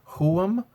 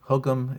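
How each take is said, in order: First: The middle consonant is a breathy GH. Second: The middle consonant is a hard G. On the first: "I'm going to pronounce them as if it's a G H" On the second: "Hugum is fine"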